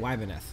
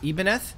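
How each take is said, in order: First: The name does not begin with an 'ee' sound. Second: The name begins with an 'ee' sound. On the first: This follows ordinary English spelling rules. "I say Wybineth" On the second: This is how the game wants it said. "the correct pronunciation is supposed to be uh, Ibaneth"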